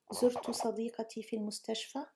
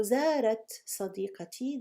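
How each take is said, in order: First: زرت said as zurtu, short u, no long a; first person form. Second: زارت said with a long open a, zaarat; she form. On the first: Teacher modelling the corrected verb, zurtu clearly. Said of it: "Oh, you want to say زرت". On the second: Teacher contrasting the she form, long a in zaarat. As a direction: stretch the a in زارت, zaa-rat. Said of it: "If you say زارت". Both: Shown as a demonstration.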